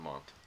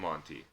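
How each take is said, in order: First: The final E is silent, ending on the T. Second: The final E is pronounced as an ee sound. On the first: The speaker calls it wrong. "I'm assuming it's a silent E" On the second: The speaker calls it right. "It's probably the Monty"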